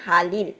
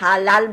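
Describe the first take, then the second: First: The words are linked with an i vowel. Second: The words are linked with an a vowel. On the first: The speaker calls it right. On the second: The speaker calls it wrong. "আমরা এরকম হালাল বলি নাই"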